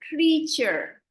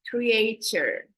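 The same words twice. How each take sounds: First: The first vowel sounds like 'ee'. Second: The first vowel does not sound like 'ee'. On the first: The speaker calls it right. "So the A sounds like a double E" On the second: The speaker calls it wrong. "I noticed somebody said creature"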